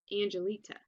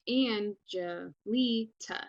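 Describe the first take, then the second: First: Said in the usual way. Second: "Angelita" stretched slowly with AN and LI stressed; "Angelita" very slow, beat by beat, AN and LI punched; slow, exaggerated syllables. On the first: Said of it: "that's naturally how your voice goes". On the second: Shown as a demonstration. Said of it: "saying my name really slow and loud and weird".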